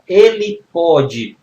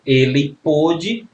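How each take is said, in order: First: "ele pode" slow and loud, with open o; present-tense "pode", open o, said emphatically. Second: "Ele pôde" slow, with closed o; past-tense "pôde", closed o, said deliberately. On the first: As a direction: stretch "pode" with the open vowel of "pó". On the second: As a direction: stretch "pôde" with a rounded, closed oh. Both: Shown as a demonstration. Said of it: "pra diferenciar passado de presente".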